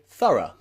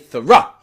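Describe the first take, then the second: First: The stress falls on the first syllable. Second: The stress falls on the second syllable. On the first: The speaker calls it right. "we say thorough" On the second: The speaker calls it wrong. "We don't say thorough"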